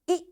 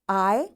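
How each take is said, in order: First: The letter is said with its short vowel sound. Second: The letter is said with its long vowel sound. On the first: "this is short vowel sound" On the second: "it is long vowel sound"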